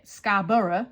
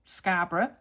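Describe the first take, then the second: First: Scarborough drawn out as "Scar-BURR-uh"; louder three-syllable Scarborough, middle fully voiced; local American pronunciation. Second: Scarborough with a reduced ending, "SCAR-bruh"; British pronunciation. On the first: Mocking how they say the place, American "Scarborough". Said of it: "They say it". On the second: Shown as a demonstration. Naming the place over here, British "Scarborough". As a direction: say Scarborough in two quick syllables. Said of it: "They say it Scarborough".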